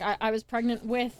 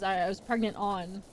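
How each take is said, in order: First: WITH stressed at the end. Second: Said in the usual way. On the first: Shown as a demonstration. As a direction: land firmly on the word "with".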